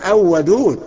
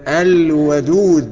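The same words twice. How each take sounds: First: The l of the article is not heard. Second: The l of the article is clearly heard. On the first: The speaker calls it wrong. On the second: The speaker calls it right.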